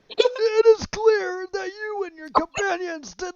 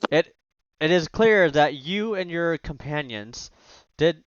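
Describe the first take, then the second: First: It is read in a put-on old man voice. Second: It is read in a normal speaking voice.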